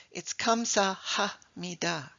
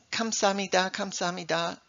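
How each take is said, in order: First: Kamsahamida said slowly with every syllable clear; correct Korean. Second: Kamsamida said with the ha syllable missing; wrong Korean. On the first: Student correcting the speaker: slow, careful kamsahamida. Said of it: "And he said". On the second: Retelling a mistake in Korea: kamsamida with a sound missing. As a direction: say kamsamida, dropping the middle ha. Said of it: "I thought I was saying". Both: Retold or imitated.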